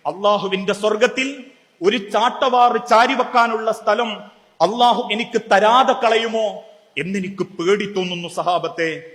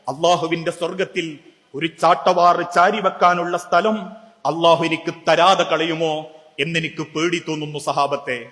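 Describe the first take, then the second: First: Said in the usual way. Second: Tearful. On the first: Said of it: "എങ്ങനെ?". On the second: Retold or imitated. Umar in the Madina mosque telling companions his fear, lightly tearful. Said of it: "കണ്ണുനീരോടെ പറഞ്ഞു".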